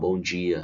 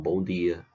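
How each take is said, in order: First: The 'd' is softened into a 'j' sound. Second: The 'd' is a plain, hard d sound. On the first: This is how people in Fortaleza speak. "Aqui em Fortaleza já tem um chiado" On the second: This is how people in the interior speak. "lá as pessoas falam"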